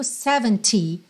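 The final T is crisply pronounced. "E no inglês britânico, seventy, bem marcadinho"

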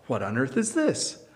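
The tone is soft and gentle. The speaker is kindly curious about the thing. "That's a kind way to say it"

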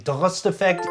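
The name is said with Dutch pronunciation.

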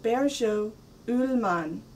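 The name is said with Scandinavian pronunciation. "but Bergå Ullman, if I have it right"

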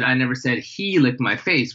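The stress falls on the word 'he'. Someone else licked the face. "obviously someone licked your face"

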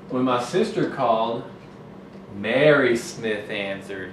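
There is a break after called.

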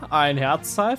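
It is said as a puzzled question. The speaker is unsure what was found.

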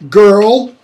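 The word is said with an audible r sound. "American English pronunciation"

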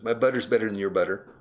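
It is spoken in a General American accent. "In toda America"

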